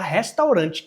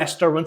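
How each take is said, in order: First: The first R is a Portuguese-style R. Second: The first R is an English-style R. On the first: The speaker calls it wrong. "você fala restaurante" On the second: The speaker calls it right. "você não fala restaurant"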